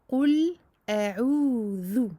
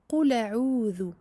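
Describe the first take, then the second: First: The l and the glottal stop are kept apart. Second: The final l runs straight into the next vowel. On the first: The speaker calls it right. "on donne son temps au lem et son temps à la hamza" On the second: The speaker calls it wrong. "Le fait de lier ici le lem et la hamza. Il ne faut pas"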